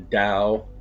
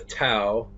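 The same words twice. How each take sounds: First: The word begins with a soft D sound. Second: The word begins with a hard T sound.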